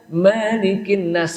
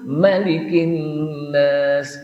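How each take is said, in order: First: The first vowel of malikin is drawn out long. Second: The first vowel of malikin is kept short. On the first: The speaker calls it wrong. "Kalau dibaca malikin nas salah" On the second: The speaker calls it right. "Yang betul"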